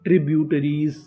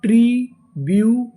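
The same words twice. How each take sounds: First: Said in the usual way. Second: ट्रीब्यूटरीज drawn out, louder; slow syllable by syllable. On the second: Shown as a demonstration. Teacher sounding out ट्रीब्यूटरीज for the class, slow and loud. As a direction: sound out ट्रीब्यूटरीज slowly, loudly. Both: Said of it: "पूरी meaning".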